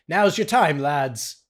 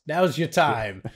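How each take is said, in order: First: Bad put-on British officer accent, punchy; rally the lads in a clumsy British accent; mock British general rousing his men; horrible British accent. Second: Repeated in a milder bad British accent; a calmer echo in mock British; lightly put-on British accent, steady; horrible British accent. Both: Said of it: "This is a horrible accent".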